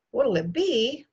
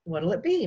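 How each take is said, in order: First: Higher, amused repeat of the question; amused echo. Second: Said in the usual way. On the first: A narrator's reading. Guest repeats the host's drink question, amused. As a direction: echo it with a touch of mock laughter. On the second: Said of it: "my father asked".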